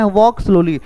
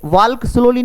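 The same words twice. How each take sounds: First: "walk" said as "wok" with a silent l; correct pronunciation. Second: "walk" with the l sounded, like "waalk"; wrong pronunciation. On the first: Teacher giving learners the right version, silent l in walk. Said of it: "pronunciation पर भी हमें". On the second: Teacher showing Hindi learners the mistake, l sounded in walk. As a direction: say "walk" pronouncing the l clearly, the wrong way. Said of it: "नहीं बोलना है". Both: Shown as a demonstration.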